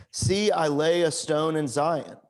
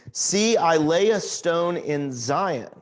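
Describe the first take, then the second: Both takes have the same delivery.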